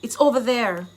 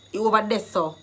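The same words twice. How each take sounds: First: Said in the usual way. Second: "there" turned to Jamaican "deh"; Jamaican Patois. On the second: Shown as a demonstration. Teacher translating a direction for learners, in Jamaican Patois. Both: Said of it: "I've given you the Jamaican dialect".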